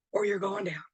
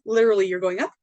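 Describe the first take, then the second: First: Softer, falling tune on down; going down. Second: Louder, lifting tune on up; going up. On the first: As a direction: let the voice sink and fade on down. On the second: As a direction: lift the voice upward on up. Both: Shown as a demonstration. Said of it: "that's what I mean by, like, high vibe or low vibe".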